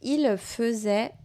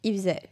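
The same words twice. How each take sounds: First: The L of 'il' is clearly pronounced. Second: The L of 'il' is dropped. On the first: "au lieu de dire" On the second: "quand on parle vite, on a tendance à ne pas prononcer le « L » de « il »"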